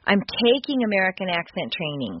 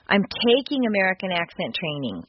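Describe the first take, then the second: First: It sounds earnest and hard-working. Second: The same.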